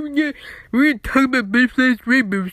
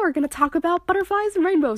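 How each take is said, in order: First: The voice is stuffy and nasal, like a blocked nose. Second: The voice is clear and polished, like radio. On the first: The speaker calls it wrong. "that's just how I sound" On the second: The speaker calls it right. "a clear, awesome radio voice"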